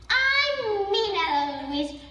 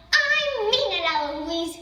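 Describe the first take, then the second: First: High, slow, drawn-out echo; mimicking back. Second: Lightly acted exasperated tutor; angry tutor. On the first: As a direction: throw the tutor's warning back. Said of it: "right back at him". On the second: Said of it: "here's what makes Philip angry". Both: A narrator's reading.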